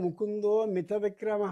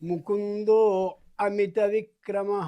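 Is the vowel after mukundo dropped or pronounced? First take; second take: dropped; pronounced. First: The a after mukundo is merged away. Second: The a after mukundo is clearly pronounced. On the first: "ఆ ఓకారంలోకి అకారం వెళ్ళిపోతుంది" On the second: "ముకుందో అమిత విక్రమ అంటే అర్థం స్పష్టంగా ఉంటుంది"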